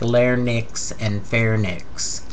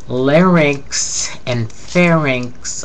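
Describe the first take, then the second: First: The n sound comes before the r sound. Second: The r sound comes before the n sound.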